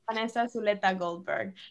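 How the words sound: The name is said with a Spanish accent. "That's how you say it in Spanish, though"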